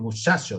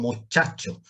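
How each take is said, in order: First: The ch is said the Andalusian way. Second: The ch is said the Castilian way. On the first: Some areas of Andalusia say it this way. "hay zonas de Andalucía que dicen muchacho" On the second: Those areas do not say it this way. "no muchacho"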